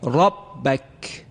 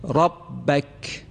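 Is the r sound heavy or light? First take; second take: heavy; heavy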